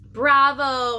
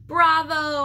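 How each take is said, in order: First: Squeaked bravo. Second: Higher, louder cheer; loud high bravo; shouted bravo. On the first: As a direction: cheer like a tiny hamster. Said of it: "I squeaked". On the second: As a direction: shout it out to the player. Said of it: "I shouted again". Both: A narrator's reading.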